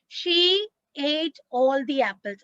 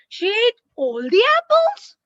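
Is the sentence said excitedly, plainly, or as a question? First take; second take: plain; question. First: It is said as a plain, calm statement. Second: It is said as a questioning sentence. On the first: It simply states a fact. "I will simply say a sentence" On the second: The speaker asks whether it is true. "Question mark"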